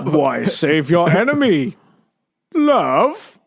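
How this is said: It is said in a put-on villain voice. "I'm trying to do Darth Vader"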